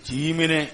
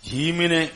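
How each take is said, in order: No difference in how they are said.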